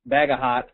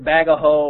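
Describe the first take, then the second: First: Three syllables, ending with a t sound. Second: Three syllables, ending in an open vowel. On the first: "It's either Bagaho or Bagahot" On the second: "It's either Bagaho or Bagahot"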